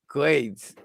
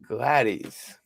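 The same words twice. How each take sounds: First: Glades said as one syllable, rhyming with shades; misreading the name. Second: Gladys said with a short A as in glad, stress on the first syllable; trying the name. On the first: Telling the viewer Gladys as one syllable, Glades with a long A. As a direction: Glades read with a long A like in grades. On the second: Asking the viewer how to say the name, Gladys said GLAD-iss. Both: Real, not acted. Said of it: "is that how you say Gladys?".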